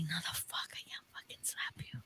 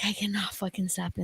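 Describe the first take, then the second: First: Voiceless whisper, horrified she'd slap him; shocked whisper. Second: Said in the usual way. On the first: Retold or imitated. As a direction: mouth it under your breath in disbelief. Retold shocked refusal to slap.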